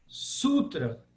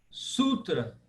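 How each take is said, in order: The two takes are said the same way.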